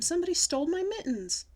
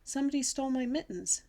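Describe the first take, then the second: First: High, loud cry of outrage; hollered alarm. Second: Slightly raised, understated anxious voice; nervous explanation. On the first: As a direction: holler the theft to everyone around. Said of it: "I hollered". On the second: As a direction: explain the loss timidly, without shouting. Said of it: "very nervous". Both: A narrator's reading.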